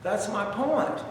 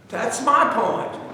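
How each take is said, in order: First: Said in the usual way. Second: Slow, weighty "That's my point" with stress on "my"; slow, deliberate "That's my point," punching "my"; emphatic. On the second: Real, not acted. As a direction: lean hard on "my" in "That's my point" and draw it out. Repeats the phrase for emphasis.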